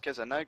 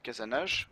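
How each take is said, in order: First: The name ends in a hard g sound. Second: The name ends in a soft zh sound. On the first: The speaker calls it right. "Ça se prononce Kazanag" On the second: The speaker calls it wrong. "pas Kazanage"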